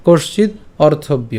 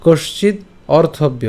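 First: "কশ্চিৎ অর্থব্য" slowly joined as one phrase; said together. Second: "কশ্চিৎ" rising, a pause, then "অর্থব্য"; broken apart. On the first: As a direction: link "কশ্চিৎ অর্থব্য" with no pause. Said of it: "এই জায়গাটা আমরা একসাথে উচ্চারণ করবো". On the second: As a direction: split after "কশ্চিৎ" before "অর্থব্য". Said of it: "এই জায়গাতে আমরা ভাঙবো". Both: Shown as a demonstration.

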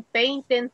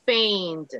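First: "painted" with a full separate -ted ending; wrongly added syllable. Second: "Paint" in one syllable, final consonant pressed; force on final consonant. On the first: Teacher showing students the mistake, "painted" in two syllables. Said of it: "no se dicen painted". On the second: Teacher modelling regular past, "Paint" closed on its last consonant. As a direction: say "Paint" with the ending squeezed onto the last consonant. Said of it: "haga la fuerza de voz en la última consonante". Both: Shown as a demonstration.

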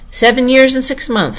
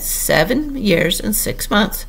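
First: Higher, musing echo of the age; thoughtful repetition. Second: Slow, careful reply; calculated answer. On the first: Humpty Dumpty pondering Alice's age, thoughtfully. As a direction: weigh it aloud with raised pitch. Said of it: "repeated thoughtfully". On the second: Alice telling her age after a short calculation, carefully. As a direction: give the figure slowly, as if just worked out. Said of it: "made a short calculation and said". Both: A narrator's reading.

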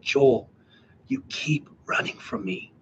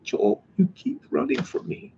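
First: Imitating a gentle voice just above a whisper; near whisper. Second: Soft, high, aching plea; passionate yearning. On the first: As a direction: drop to a hushed, breath-only murmur. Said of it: "just a hint above a whisper". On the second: Retold or imitated. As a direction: imitate a tender voice full of longing. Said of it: "passion and a yearning".

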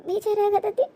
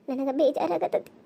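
First: Higher, soft, whining ಬೇಜಾರಾಗತೈತಿ with a rising end; sad whimper. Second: Low, slow and soft, heavy with guilt; sad murmur. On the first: Guilty wife to herself, soft rising whimper. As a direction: let it break upward into a whine. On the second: Guilty wife to herself, slow sad murmur. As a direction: sigh the words out slowly. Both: Acted.

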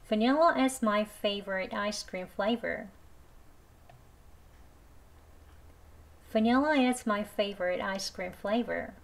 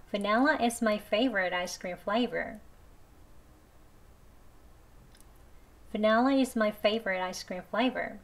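First: Every word spoken very slowly, "Vanilla" with an i; slow model sentence. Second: Every word spoken very slowly, "Vanilla" with an e; slow careful reading, e vowel; slow e version. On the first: Teacher reading the ice cream sentence slowly, i version. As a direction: read it slow for learners. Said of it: "두 번 천천히 해볼게요". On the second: Teacher reading the ice cream sentence slowly, e version. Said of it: "Vanilla로 해볼게요". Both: Shown as a demonstration.

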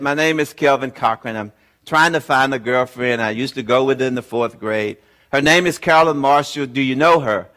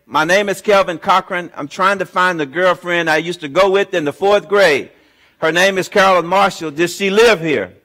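First: Deflated after too many calls; less enthusiastic. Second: Brightly hopeful, first call of many; eager, hopeful. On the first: Weary caller at yet another Marshall number, deflated. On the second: Calling strangers hunting his fourth-grade sweetheart, eager. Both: Retold or imitated. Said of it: "I was not as enthusiastic this time".

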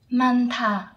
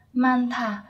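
Both takes have the same delivery.

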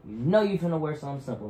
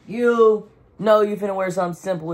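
First: Said in the usual way. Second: Higher and louder, teasing; louder playful repeat. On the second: Real, not acted. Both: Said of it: "repeated louder".

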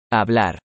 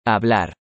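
The two takes are said the same way.

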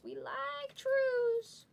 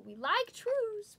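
First: Much higher, very slow put-on voice; sillier voice. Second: High, slow put-on voice; silly voice. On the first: Breaker repeating the joke for viewers, even higher and slower. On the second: Breaker joking to viewers about trues, goofy high slow voice.

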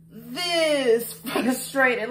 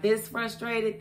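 First: Very slow, drawn-out "this frustrated" with a laugh; exaggerated frustration. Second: Said in the usual way. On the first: Shown as a demonstration. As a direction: drag it out for the punchline, laughing. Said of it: "The answer is". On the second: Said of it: "how frustrated have I been".

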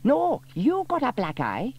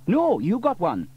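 First: High, loud busybody voice; Dilys insisting. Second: High, loud fireman voice; Sam insisting. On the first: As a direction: Dilys correcting Sam. Dilys argues. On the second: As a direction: Sam correcting Dilys. Sam argues back. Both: A narrator's reading.

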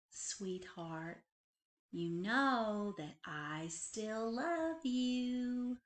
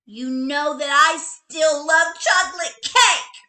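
First: Soft, slow loving mother; mother soothing her child at night; tender mother. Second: High, loud sulky retort; little bunny answering her mother loudly; loud whiny child. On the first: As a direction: say it gently at bedside. Mother kisses daughter goodnight. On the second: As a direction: throw it back at mom, pouting. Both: A narrator's reading.

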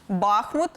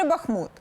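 First: Бахмут with the stress on the first syllable, БАх-. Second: Бахмут with the stress on the last syllable, -мУт. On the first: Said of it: "в топі неправильне наголошування". (наголос на першому складі: Бахмут) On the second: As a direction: hit the final syllable of Бахмут. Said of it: "до наголошування саме останнього складу". (наголос на останньому складі: Бахмут) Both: Shown as a demonstration.

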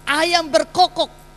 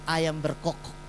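First: Ayam berkokok slowed right down, higher and louder; dramatic slow repeat. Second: Said in the usual way. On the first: Shown as a demonstration. Pastor dramatizes the rooster crowing in Peter's story, slow and emphatic. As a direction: let Ayam berkokok land, slow and heavy.

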